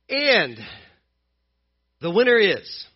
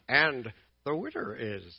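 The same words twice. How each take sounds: First: It is said in a normal announcer voice. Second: It is said in a Yoda impression voice.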